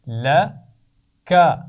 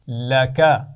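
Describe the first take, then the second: First: The two syllables are said separately with a break. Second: The two syllables are joined smoothly without a break.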